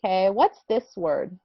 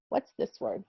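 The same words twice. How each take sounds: First: Said in the usual way. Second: Whispered What's this word; a playful secret whisper to the class. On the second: Shown as a demonstration. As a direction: ask it again in a whisper. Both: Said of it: "asks twice, second whispered".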